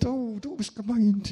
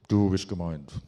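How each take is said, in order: First: The voice is soft, breathy and murmuring. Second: The voice is plain and normally voiced. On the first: "weiblicher Engel ... So säuseln" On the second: "der Engel des Herrn, der muss jetzt direkt neben uns stehen und sprechen"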